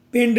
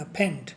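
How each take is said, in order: First: पेंड with a plain p sound, shown as the wrong way; wrong reading pend. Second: फेंड with a breathy ph or f at the start; फेंड starting on a clear ph, said low and soft; correct fend. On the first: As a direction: say पेंड with an unaspirated p, as the mistake to avoid. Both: Shown as a demonstration. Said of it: "पेंड नहीं पढ़ना".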